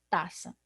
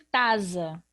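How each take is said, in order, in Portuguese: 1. A consoante do meio é um som de s. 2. A consoante do meio é um som de z. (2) "ele vai ter som de Z"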